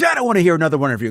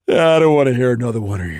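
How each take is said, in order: First: It is said in a tough, confrontational way. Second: It is yawned sleepily in one breath. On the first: The speaker feels threatened and is challenging the listener. The speaker calls it wrong. "instead of being like" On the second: The speaker feels no threat from the listener at all. The speaker calls it right. "he literally yawns the line in one breath"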